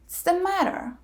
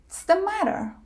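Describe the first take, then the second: First: 'What is' is shortened to a ts sound. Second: The same.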